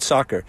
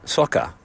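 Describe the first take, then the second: First: Said in the usual way. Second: Soccer in an imitated British accent, ending in "ah". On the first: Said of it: "what if we said it like you". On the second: American host teasing his English friend, mock British accent. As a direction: say soccer like a Brit, "sock-ah". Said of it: "said it like you".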